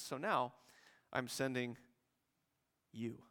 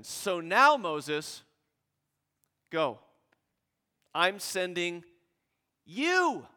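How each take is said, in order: First: "So now … I'm sending you" falling to quiet; quiet understated take. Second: "So now" and "you" ringing out loud and high; loud climactic take. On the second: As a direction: call out "So now … you" with full force. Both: Shown as a demonstration. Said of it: "And God says".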